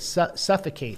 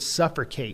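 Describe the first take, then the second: First: The word begins with plain 'suff', said normally. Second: The word begins with 'suffer', blending two words. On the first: "instead of" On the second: "that's a, a portmanteau, which is like when you combine two words, so suffer and suffocate"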